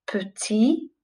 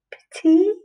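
First: Said in the usual way. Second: Petit lifted high and rising on the repeat; teacher sings Petit back up high; higher sing-song repeat. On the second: Shown as a demonstration. Teacher models the title for pupils, Petit high and rising. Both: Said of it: "It's called".

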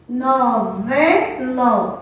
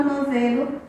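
First: "Novelo" very slow, split as no-ve-lo; slow teacher's count through each syllable of "Novelo". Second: Said in the usual way. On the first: Shown as a demonstration. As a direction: break "Novelo" into three drawn-out syllables. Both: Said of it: "podemos separar e contar as sílabas".

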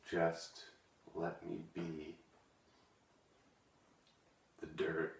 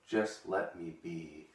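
First: Just let me be. dropped to a soft, hammed-up near-whisper; softest emotional. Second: Emotional. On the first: Poet whispering the final Just let me be. to viewers, overcome. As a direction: barely get out the last Just let me be. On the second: Acted. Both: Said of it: "I get a little emotional".

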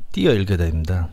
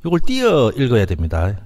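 First: Said in the usual way. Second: 띄어 lifted and leaned on with a rising end; stress on 띄어. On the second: Shown as a demonstration. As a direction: punch 띄어 so the point lands.

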